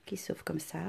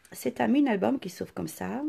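First: A soft whisper to herself. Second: Said in the usual way. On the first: Shown as a demonstration. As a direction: drop to a whisper. Repeats phrase, then whispers it. (chuchoté tout bas)

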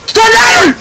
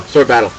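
First: Excited shout. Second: Said in the usual way. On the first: Real, not acted. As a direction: shout it out high and loud. Yelling challenge in game.

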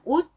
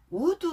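First: "would" as a short ud, no vowel after the d; "would" in one brief syllable, ud. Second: "would" drawn out into two syllables, u-deu; "would" as u-deu, final vowel sounded; would with an added vowel. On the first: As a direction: cut "would" off right at the d. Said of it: "아니고 그냥 would". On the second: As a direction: say "would" Korean-style with a vowel after the d. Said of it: "would 아니고 그냥 would". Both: Shown as a demonstration.

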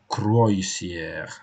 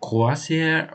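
First: Croisière as "kroy-see-air"; croisière sounded out as spelt, "kroy" first; spelling pronunciation. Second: Croisière as "kwah-syair"; croisière with a French "wa" in the first syllable; French pronunciation. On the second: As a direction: say croisière with a "wah" sound, higher and drawn out. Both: Shown as a demonstration. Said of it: "is it".

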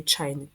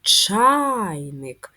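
First: Said in the usual way. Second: Чайник with the а stressed, louder and rising; teacher showing the stress on the first syllable; stress demo. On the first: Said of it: "визначимо наголос в слові". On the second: Shown as a demonstration. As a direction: lean hard on the а in Чайник, ЧА-йник. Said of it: "Наголос на «а»".

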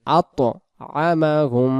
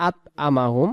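First: আতআমাহুম drawn out very slowly, syllable by syllable; slow recitation demo. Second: আতআমাহুম said quickly with a plain Bengali ত; wrong pronunciation demo. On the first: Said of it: "পরের শব্দ". (আতআমাহুম ধীরে ধীরে টেনে পড়া) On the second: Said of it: "এই ত অক্ষরটা ভুল হয়ে যাবে". (ভুল উচ্চারণ, আতআমাহুম সাধারণ ত দিয়ে) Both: Shown as a demonstration.

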